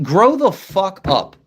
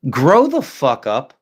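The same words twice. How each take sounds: First: Higher, slow, each word leaned on; earnest repeat, pitched up and slowed; emphatic repeat. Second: Slow, deadpan put-down; blunt dismissal. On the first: Real, not acted. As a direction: hammer it home the second time. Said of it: "Like, legit". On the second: Retold or imitated. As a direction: say it flat and slow, like you're done. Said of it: "I just look at them like".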